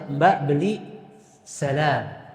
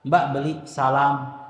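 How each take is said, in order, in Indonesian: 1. Vokal a dalam salam terdengar tipis. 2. Vokal a dalam salam terdengar tebal.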